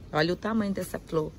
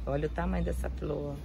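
First: Said in the usual way. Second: Softer and lower, murmured to herself; quieter, lower echo of the first line; soft lower repeat. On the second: Real, not acted. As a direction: say it again under your breath in awe.

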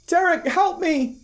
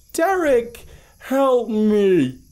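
First: Very high, slow monotone cry for help; emotionless monotone mimic. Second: Eerie mimic call sinking in pitch on the last word; high creature cry that falls away at the end; inhuman dropping voice. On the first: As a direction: sound like an eerie recording of a voice played back. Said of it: "A monotone with no emotion". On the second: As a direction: start very high and monotone, then slide downward. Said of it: "its voice dropped inhumanly low". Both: A narrator's reading.

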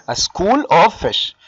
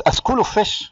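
First: Drawn-out "A school of fish", word by word; very slow teacher's dictation of "A school of fish"; slow, deliberate. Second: Said in the usual way. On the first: Shown as a demonstration. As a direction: stretch out "school" and "of" for the class. Teacher spells out term slowly.

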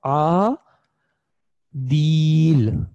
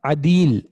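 First: आ, दील stretched slowly with a gap between syllables; teacher stretching आ, दील into separate slow sounds; drawn-out syllables. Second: अदील said as one smooth word, a bit slow; teacher blending the syllables into अदील; blended word. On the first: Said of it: "इसने होना था". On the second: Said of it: "इसको होना था अदील". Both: Shown as a demonstration.

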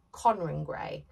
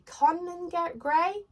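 First: GRAY falling low, as a statement; settled statement. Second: GRAY rising high as a question; unsure questioning. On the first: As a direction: settle on "Conran Gray" with a dropping tone. Settles on the singer's name. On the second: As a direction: try out "Gray?" with a high, doubtful lift. Unsure of the singer's name. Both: Real, not acted.

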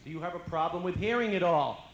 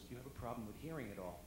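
First: Much louder, higher repeat; doctor raising his voice to the patient; doctor repeating loudly. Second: Said in the usual way. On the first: Retold or imitated. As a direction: say it louder for a hard-of-hearing patient. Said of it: "he repeats the question". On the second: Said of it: "the doctor goes to my mom".

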